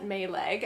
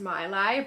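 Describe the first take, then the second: First: It is said the speaker's usual anglicized way. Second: It is said the original Danish-style way. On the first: This is how the family casually says it. The speaker calls it wrong. "I know I'm not pronouncing this right. We call it" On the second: This is the brand's real pronunciation. The speaker calls it right. "I think it is actually pronounced"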